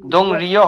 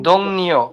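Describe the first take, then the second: First: The second syllable begins with an r sound. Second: The second syllable begins with an n sound. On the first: The speaker calls it wrong. "দং রিয় হয়নি" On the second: The speaker calls it right. "দং রিয় হয়নি, দং নিয়"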